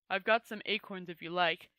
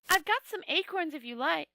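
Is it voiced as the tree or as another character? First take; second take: tree; other character. First: It is voiced as the tree character. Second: It is voiced as a different character.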